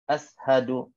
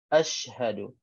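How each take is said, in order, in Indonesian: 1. Bunyi sh lemah, tanpa hembusan udara. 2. Bunyi sh penuh, dengan hembusan udara. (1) "tak sempurna" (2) "sempurnanya shin ini dengan sifatnya"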